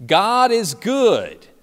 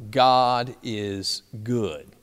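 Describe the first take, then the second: First: Loud, high, drawn-out call; camp director's yell. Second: Slow, spaced-out words, falling to a close; campers' measured response. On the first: Camp director calling to kids in the cafeteria, yelled out. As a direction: call it out to get everyone's attention. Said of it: "he would yell out". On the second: Campers responding to the camp director, slow measured answer. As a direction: answer word by word at normal volume. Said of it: "the campers would respond". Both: Retold or imitated.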